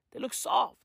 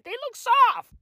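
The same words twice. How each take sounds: First: Said in the usual way. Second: Squealed gush. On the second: Shown as a demonstration. Squealed then repeated plainly.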